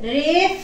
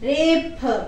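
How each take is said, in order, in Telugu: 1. చివరి హల్లు f శబ్దం. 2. చివరి హల్లు ఆస్పిరేటెడ్ p. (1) "రేఫ్ కాదమ్మా" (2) "పాప ఫ అనే పలకాలి"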